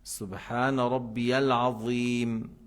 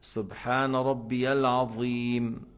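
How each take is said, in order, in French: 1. La consonne du dernier mot est un th. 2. La consonne du dernier mot est un th.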